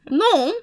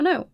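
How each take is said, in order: First: "No" as French "non", nasal vowel; French pronunciation. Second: Said in the usual way. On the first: Shown as a demonstration. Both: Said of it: "is French for no".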